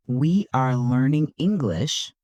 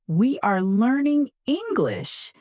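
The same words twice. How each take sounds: First: Said in the usual way. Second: High-pitched, cheerful model sentence; happy. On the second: Shown as a demonstration. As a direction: say it high with a big smile. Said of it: "but try to sound happy".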